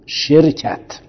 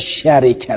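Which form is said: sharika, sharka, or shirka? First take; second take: shirka; sharika. First: First vowel i, no vowel after r. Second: First vowel a, vowel i after r. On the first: "به کسر و سکون" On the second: "به فتح و کسر"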